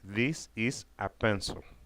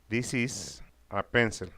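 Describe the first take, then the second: First: This is is said as two full words. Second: This is is run together into one syllable.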